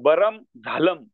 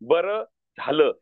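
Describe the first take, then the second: First: Each word ends with a full m sound. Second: Each word ends with a nasalized vowel. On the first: The speaker calls it wrong. "असं पण वाचू शकतात" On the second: The speaker calls it right. "त्याचं वाचन कसं करावं"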